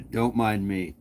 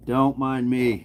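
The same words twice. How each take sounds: First: Said in the usual way. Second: Breathy, slow Don't mind me; breathy French. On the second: Shown as a demonstration. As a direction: drawl it out, breathy and indifferent. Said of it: "It's all breathy".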